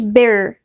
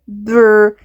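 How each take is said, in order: First: A vowel sound separates the b and r. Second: The b and r blend with no vowel. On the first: The speaker calls it wrong. "مقولش بر، ما جيبش vowel بعد البي" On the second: The speaker calls it right. "لأ بر، هندمج الاتنين على طول مع بعض"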